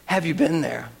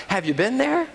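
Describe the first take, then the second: First: Said in the usual way. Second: THERE lifted high on a rising question. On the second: Shown as a demonstration. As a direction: toss "Have you been there?" up high, ending on a rise.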